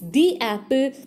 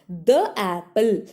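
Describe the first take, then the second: First: 'The' is said with a long ee vowel. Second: 'The' is said with a short uh vowel. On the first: The speaker calls it right. "It is the apple" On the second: The speaker calls it wrong. "It's not the apple, ... It's wrong pronunciation"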